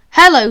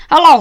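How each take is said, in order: First: Said in the usual way. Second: A light Scottish hello; Scottish accent. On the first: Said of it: "said James". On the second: A narrator's reading. Douglas greets James in a lightly voiced Scottish accent. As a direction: greet them with a hint of a Scottish lilt. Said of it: "said Douglas in a Scottish accent".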